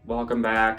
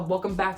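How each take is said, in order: First: It is said flat and low, without energy. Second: It is said open and lively, with energy. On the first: The speaker feels uncomfortable on camera. The speaker calls it wrong. "I was like very monotone" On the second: The speaker feels comfortable on camera. The speaker calls it right. "now I'm very like open"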